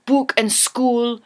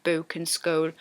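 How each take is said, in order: First: BOOK and SCHOOL with long, hard "oo"; overpronounced Geordie vowels. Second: BOOK and SCHOOL low and soft, with an "oh"-like glide; softer Sunderland vowels. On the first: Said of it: "are really overpronounced". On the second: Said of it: "It's a little bit softer". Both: Shown as a demonstration.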